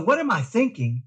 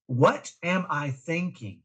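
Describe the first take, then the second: First: Higher, brighter take of the mantra; the mantra voiced higher, as a reminder. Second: Slowed-down question, each word placed; slow deliberate mantra. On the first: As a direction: lift it up like a quick self-check. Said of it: "And so". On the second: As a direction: say the mantra slowly and clearly. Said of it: "something we called wait". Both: Shown as a demonstration.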